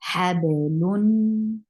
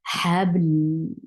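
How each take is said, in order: First: The word ends with a nasal 'un' sound. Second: The word stops on a bare 'l' sound. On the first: The reading continues without stopping. "the second noon is actually noon sakin" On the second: The reader pauses at this word. "how will you stop? You will give uh, mm, sukoon at the end"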